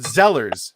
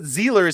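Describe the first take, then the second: First: The first vowel sounds like 'sell'. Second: The first vowel sounds like 'seal'. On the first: The speaker calls it right. "there was a store here called Zellers" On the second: The speaker calls it wrong. "not Zealers"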